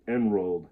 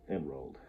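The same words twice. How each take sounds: First: Said in the usual way. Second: Much lower and softer repeat; dropping away. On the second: A narrator's reading. Narrator ending the long tumble down the hill, dropping away. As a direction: sink down on the final repeat.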